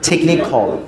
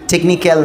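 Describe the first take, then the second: First: The ending sounds like 'khol'. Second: The ending sounds like 'kal'. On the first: The speaker calls it right. "উচ্চারণটা টেকনিখল" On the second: The speaker calls it wrong. "টেকনিক্যাল না"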